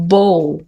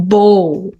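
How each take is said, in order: The two takes are said the same way.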